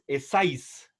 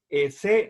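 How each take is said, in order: First: The final s is sounded. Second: The final s is silent. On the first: The speaker calls it wrong. "no es Essais" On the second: The speaker calls it right. "en francés se lee Essai de Théodicée"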